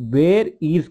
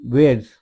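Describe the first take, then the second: First: Two separate words, with 'is' said in full. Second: One short word, with 'is' reduced to 's'.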